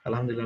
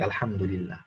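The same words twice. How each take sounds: First: It is rattled off hurriedly. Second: It is said calmly, with feeling.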